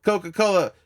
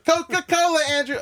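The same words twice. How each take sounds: First: Said in the usual way. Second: Very high, loud exclamation; excited mock shout. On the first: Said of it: "I said". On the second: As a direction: squeal it out as an imitated cheer. Acts out excited answer to Andrew.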